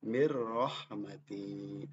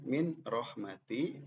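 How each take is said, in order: First: The n merges straight into the r. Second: The n sound is kept before the r. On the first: "dibaca yang benar"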